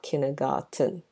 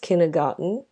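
First: The T sound is crisp, as spelled. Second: The T sound is softened, not crisp. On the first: The speaker calls it wrong. "not kindergarten" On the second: The speaker calls it right. "it's not pronounced kindergarten according to how it's spelled"

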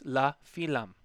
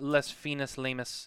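First: Each word is short with no extra syllables. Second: The words carry extra syllables at their ends. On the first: The speaker calls it right. "It's la fin lam" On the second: The speaker calls it wrong. "Not les finis lamus"

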